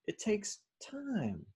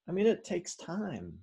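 First: Slow, high and soft, "time" stretched; patient, lingering high-pitched repeat; drawn-out emphasis. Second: Higher-pitched, light reminder; high, easy-paced assertion; lilting emphasis. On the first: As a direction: stretch it out as if waiting. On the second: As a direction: lift "takes time" up high at normal pace. First take, before drawn-out repeat. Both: Real, not acted.

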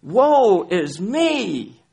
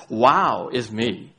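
First: Slow, high, loud lament on woe; groaning cry of woe is me. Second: Slow, self-pleased wow is me; mock the proud believer; lightly mocking boast; smug wow. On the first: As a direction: wail the word woe slowly. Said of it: "Instead of ... "Wow is me". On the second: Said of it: "Instead of sometimes our approach to God is". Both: Shown as a demonstration.

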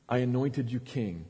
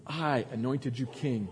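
First: I pressed hard, the rest falling away; stress on I. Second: I held, said slowly; slow, with weight on I; stress on I. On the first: God reminding David who made him king, stress on I. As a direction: lean on I, not on king. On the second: God repeating to David that he anointed him, I stressed. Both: Shown as a demonstration. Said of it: "Emphasis on I".

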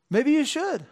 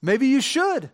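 First: "you" pitched high and pointed; "Maybe you should" with the weight on "you"; stress on you. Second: "should" landed with a falling close; "Maybe you should" with the weight on "should"; stress on should. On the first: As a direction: aim "you" straight at the listener. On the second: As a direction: hit "should" and let it fall. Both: Shown as a demonstration.

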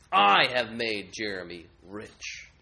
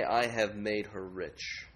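First: Slow, loud, gloating idol boast. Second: Slow, hushed hypothetical boast; muted idol boast. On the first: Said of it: "And they boast". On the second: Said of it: "Would they say". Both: Acted.

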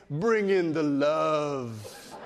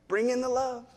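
First: Slow, drawn-out DJ croon on the last word; deep radio DJ. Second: Put-on higher little-kid voice, lifting on "love"; four-year-old voice. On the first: Retold or imitated. Preacher imitates a four-year-old wanting a hug, deep radio DJ voice. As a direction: put on a big radio DJ voice, stretching it out. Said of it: "In a deep voice, like he's a radio D J". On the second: Preacher voices a four-year-old's bid for connection, high child voice. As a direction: imitate a small child, pitched up. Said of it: "in a four-year-old voice".

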